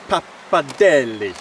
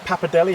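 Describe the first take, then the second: First: The final 'de' syllable is clearly pronounced. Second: The final 'de' syllable is dropped.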